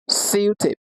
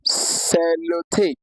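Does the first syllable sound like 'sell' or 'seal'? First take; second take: seal; sell. First: The first syllable sounds like 'seal'. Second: The first syllable sounds like 'sell'. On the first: The speaker calls it right. "It's actually pronounced as seal tape" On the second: The speaker calls it wrong. "That's how it's wrongly pronounced"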